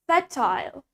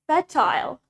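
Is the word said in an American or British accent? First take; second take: British; British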